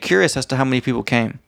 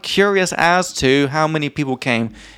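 First: The phrase is said quickly and smoothly. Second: The phrase is said slowly and carefully. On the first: The speaker calls it right. "It's very quick" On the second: The speaker calls it wrong. "It's not like"

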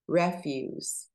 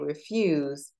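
First: The stress is on the first syllable. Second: The stress is on the second syllable. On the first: It means waste or garbage. The speaker calls it wrong. "Like it was waste" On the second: It means to reject something. The speaker calls it right. "instead of saying refuse"

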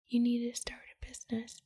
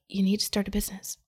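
First: It is said quietly, like a soft inner voice. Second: It is said somewhat louder and firmer. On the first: The inner voice is only a gentle nudge. "like that" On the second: The inner voice is getting more insistent. "it got a little bit louder"

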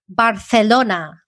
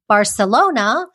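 First: The c is said with a th sound. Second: The c is said with an s sound. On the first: This is how it is said in Spain. "Here in Spain, they say Barcelona" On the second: This is how it is said in Mexico. "in, you know, Mexican Spanish, they would say Barcelona"

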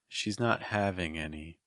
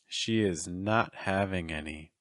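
First: The words 'she is' are joined as 'she's'. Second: The words 'she is' are said separately. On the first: "say it contracted" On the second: "say it with the verb to be in its full form"

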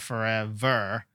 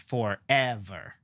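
First: The stress is not on the middle syllable. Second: The stress is on the middle syllable. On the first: The speaker calls it wrong. "Or forever" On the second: The speaker calls it right. "It's forever"

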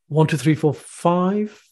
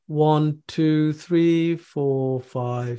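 First: The numbers are counted in varied, rhythmic bundles. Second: The numbers are counted in one flat, even tone. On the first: The speaker calls it right. "So what we do it in bundles and we create some pauses" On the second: The speaker calls it wrong. "It's not like that. That's quite monotonic"

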